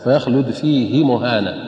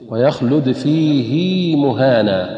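First: The vowel after the h is short. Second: The vowel after the h is lengthened. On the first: The speaker calls it wrong. "فيقرؤونها بالقصر هكذا" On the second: The speaker calls it right. "أن نصل الهاء بياء مادية حركتين"

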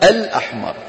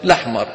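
First: A glottal stop comes before the vowel after al. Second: The word starts directly with the l sound. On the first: This is the original form of the word. "أصلها الأحمر" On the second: The connecting hamza has also been dropped. "حذفت همزة الوصل شو صارت"

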